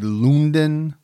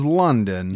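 First: The surname is pronounced the Danish way. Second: The surname is pronounced the American English way. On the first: "some people over there might say Lunden" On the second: "I'm going to say his last name is London"

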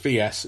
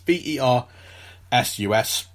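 First: It is spoken as two separate letters. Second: It is spoken as one full two-syllable word. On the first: The speaker calls it wrong. "not just VS" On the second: The speaker calls it right. "that's the full word versus"

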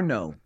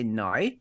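First: The word is said with a plain American vowel. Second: The word is said with a drawn-out Australian vowel. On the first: "it doesn't sound like our no" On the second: "they say nai. It's like there's like an extra syllable in there"

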